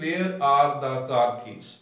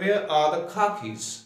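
First: Every word is said fully, in a Pakistani accent. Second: Function words are reduced, in a British accent. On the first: "जिस तरह हमारे पाकिस्तानी इसको बोलते हैं" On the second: "ब्रिटिशर जो है जब इसको पढ़ता है ... तो वो इसको ऐसे पढ़ते हैं"

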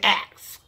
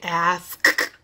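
First: The word ends with a ks sound. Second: The word ends with an sk sound. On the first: "We say ax" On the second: "We just don't say ask"

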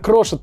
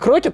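First: The middle consonant is an sh sound. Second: The middle consonant is a k sound. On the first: The speaker calls it right. "а Крошет" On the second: The speaker calls it wrong. "Не Крокет"

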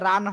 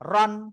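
First: The vowel sounds open, like a. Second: The vowel sounds rounded, like o. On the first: The speaker calls it wrong. "রান হবে না" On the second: The speaker calls it right. "র দুই জবর, রন"

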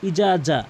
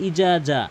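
Both takes have the same delivery.

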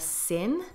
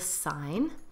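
First: The name is said the French way. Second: The name is said the English way. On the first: The speaker calls it right. "is called the Seine" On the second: The speaker calls it wrong. "not the Seine"

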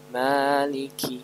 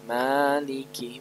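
Both takes have the same delivery.

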